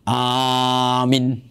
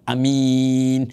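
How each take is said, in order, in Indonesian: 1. Hanya vokal pertama yang dibaca panjang. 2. Hanya vokal kedua yang dibaca panjang. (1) "Atau dibaca hanya panjang" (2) "amin hanya pendek, ... Sementara minnya panjang"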